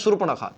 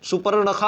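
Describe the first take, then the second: First: The r sound comes right after the first syllable su. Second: The r sound comes after the second syllable pa. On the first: The speaker calls it right. "होता है सुर्पणखा ... सु के बाद आपको रा लाना" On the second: The speaker calls it wrong. "सुपर्णखा आप लोग कहते हैं ... जबकि ये गलत होता है"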